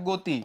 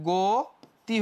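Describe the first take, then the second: First: গতি with an open "go" sound at the start; wrong pronunciation. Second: Slow গতি with a closed o, "goti"; teacher modelling গতি slowly with o; correct pronunciation. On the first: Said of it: "নিয়ম অনুযায়ী এরকম হবে না". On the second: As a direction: draw out গতি slowly, first vowel rounded o. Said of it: "এটা হচ্ছে ওকার হয়ে যাবে". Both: Shown as a demonstration.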